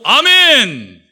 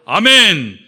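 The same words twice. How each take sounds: First: It is said on a high pitch. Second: It is said on a middle pitch.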